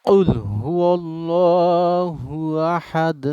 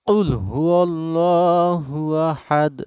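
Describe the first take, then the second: Both takes have the same delivery.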